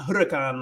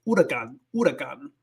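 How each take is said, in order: First: Huracán begun like English hurricane, H sounded; English-style mispronunciation. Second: Huracán starting straight on oo, no H; silent H. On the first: Teacher shows the English mistake, huracán with sounded H. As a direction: say huracán with an English hur- at the front. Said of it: "like English, like hurricane". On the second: Teacher corrects the word, huracán with silent H. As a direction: drop the H in huracán, Spanish style. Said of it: "you don't pronounce the H". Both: Shown as a demonstration.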